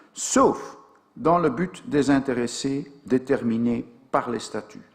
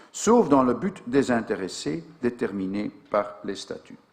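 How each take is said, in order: Both takes have the same delivery.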